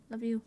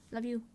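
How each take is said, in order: Both takes have the same delivery.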